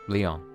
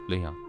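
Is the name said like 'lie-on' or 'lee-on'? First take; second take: lee-on; lee-on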